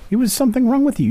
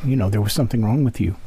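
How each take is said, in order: First: Higher, faster mock outrage; mock scandalised. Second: Said in the usual way. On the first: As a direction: parrot the old prejudice in a shocked voice. Mock-scandalised repeat of social judgement.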